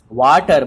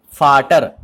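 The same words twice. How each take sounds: First: Vater said like English water with a w; wrong English way. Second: Vater said with an f sound, FAH-ter; German Vater. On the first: Teacher showing the wrong English reading of Vater. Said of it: "will not be pronounced as water". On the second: Teacher showing students the German way to say Vater. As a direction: Vater starting with f, not v. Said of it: "it will be pronounced as Vater". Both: Shown as a demonstration.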